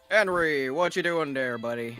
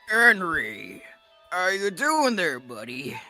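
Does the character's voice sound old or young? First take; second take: young; old. First: The voice is relaxed and sounds young. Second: The voice is strained and sounds old. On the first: The character seems to be a young man. The speaker calls it right. "sound young" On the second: The character seems to be an old man. The speaker calls it wrong. "the strain in your voice that you're doing, but you don't gotta do that"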